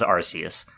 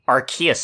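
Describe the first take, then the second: First: The start sounds like the word 'arse'. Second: The start does not sound like 'arse'. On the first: This is how the speaker long assumed it was said. The speaker calls it wrong. "for years I thought it was Arceus" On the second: This is the official pronunciation. The speaker calls it right. "That's how they pronounce it"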